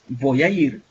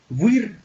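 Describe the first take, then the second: First: Each word is said separately and clearly. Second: The words run together into one linked chunk. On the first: "ya no es voy a ir" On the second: "nosotros unimos los sonidos"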